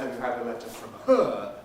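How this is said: The main stress falls on her. It contrasts her with somebody else. "unless we're making contrast between her and somebody else"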